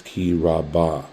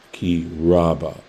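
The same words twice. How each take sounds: First: Raba said as ra-BA, the weight landing on the final syllable; stress on last syllable. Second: Raba said as RA-ba, the weight on the first syllable, slowed; stress on first syllable. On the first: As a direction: say ki raba with the accent at the very end. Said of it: "the accent falls on the last syllable". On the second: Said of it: "the accent here falls on the first syllable". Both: Shown as a demonstration.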